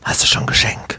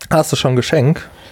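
First: It is spoken in a quiet whisper. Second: It is spoken in a normal, full voice.

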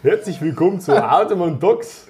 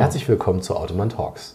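First: It is said in a Bavarian accent. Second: It is said in a standard German accent.

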